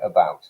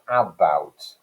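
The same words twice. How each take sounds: First: The first vowel is a weak schwa. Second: The first vowel is a flat 'a'. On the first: This is how it is said today. "that first vowel, listen to it, uh, that's the schwa sound" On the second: This is how it was said centuries ago. "the a sound was like a, that ash, that flat ash vowel"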